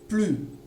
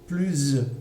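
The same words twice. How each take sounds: First: The word ends with no consonant sound. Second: The word ends with a z sound. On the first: "Je prononce plus sans le S" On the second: "avec le, le son Z"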